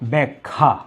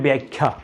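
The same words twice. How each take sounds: First: The final syllable ends with a plain 'a' vowel. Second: The final syllable ends with an 'ae' vowel. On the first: The speaker calls it right. "শেষেরটি সরাসরি আকার যুক্ত থাকবে" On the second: The speaker calls it wrong. "এটাকে অনেকে বলেন যে ব্যাখ্যা। না"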